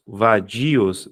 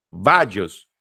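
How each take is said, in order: First: "Vadios" in three syllables, stress on DI; correct hiatus pronunciation. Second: "vadios" with VA punched, VA-djos; wrong stress demo. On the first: Teacher shows the class how the word is read, correct hiatus pronunciation. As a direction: sound out "Vadios" as va-DI-os, with a full i. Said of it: "se ninguém lê vadios". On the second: Teacher rejects this reading for the class, wrong stress demo. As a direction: hit VA in "vadios" and squash dios into one syllable. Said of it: "Não, né?". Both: Shown as a demonstration.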